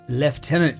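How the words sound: It is pronounced in a British way.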